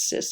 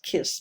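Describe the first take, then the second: First: The word begins with an S sound. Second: The word begins with a K sound. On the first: This is the pronunciation everyone uses. "everyone says cis" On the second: This is the original Greek pronunciation. "it's Greek and it should be pronounced kiss"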